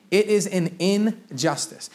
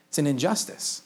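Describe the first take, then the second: First: "It is an injustice" slowed right down, each word set apart; emphatic restatement. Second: Said in the usual way. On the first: Real, not acted. Preacher driving home a strong word, emphatic and slow on "injustice". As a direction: stretch "injustice", leaning on its first syllable, "in".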